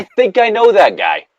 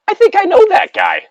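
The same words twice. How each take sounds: First: High, mock-squeaky repeat; a high cartoonish squeak; squeaky joke voice. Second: Very high, tiny squeak of a voice; a high silly squeak claiming to know the guy; squeaky joke voice. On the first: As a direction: say it again in a high silly voice. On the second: Pretend. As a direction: squeak it out like a little cartoon critter. Joking about a game creature.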